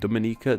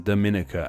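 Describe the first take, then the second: First: The stress falls on the 'ni' syllable. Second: The stress falls on a syllable other than 'ni'. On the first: The speaker calls it right. "the ni syllable is stressed" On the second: The speaker calls it wrong. "as I would have been tempted to say"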